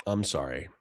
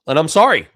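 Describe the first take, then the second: First: Much softer, lower sorry; quiet apology. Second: Louder, higher-pitched burst of sorry; loud apology. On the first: Apologising to chat again, a soft, low sorry. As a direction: let it fall away to almost nothing. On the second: Apologising to chat for not making sense, a louder blurted sorry. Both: Real, not acted.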